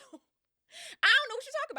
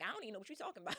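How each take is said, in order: First: Much higher, loud, sing-song innocence; high fake-innocent voice. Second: Said in the usual way. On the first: Circe playing dumb to Odysseus, high and innocent. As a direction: play dumb in a high put-on voice. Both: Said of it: "Seriously, like".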